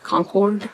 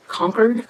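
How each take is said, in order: First: Concord said as CON-cord, full "cord" ending; alternate pronunciation. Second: Concord said as CONK-erd, weak second syllable; alternate pronunciation. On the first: Crafter unsure of the ink color's name, full-vowel pronunciation. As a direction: say Concord with a clear "or" in the second syllable. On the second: Crafter unsure of the ink color's name, alternate pronunciation. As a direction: say Concord like "conquered", questioning rise. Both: Shown as a demonstration. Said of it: "I'm not sure how you pronounce that".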